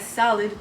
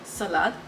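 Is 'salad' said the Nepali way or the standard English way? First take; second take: standard; Nepali. First: It is said with a standard English pronunciation. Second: It is said with a Nepali English pronunciation. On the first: "Instead of pronouncing as salad" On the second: "we call it salad"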